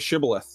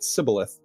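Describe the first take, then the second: First: The word begins with a 'sh' sound. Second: The word begins with an 's' sound. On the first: This is the password as asked. The speaker calls it right. "say Shibboleth" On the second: The speaker gives away being from the other group. The speaker calls it wrong. "they pronounced it Sibboleth"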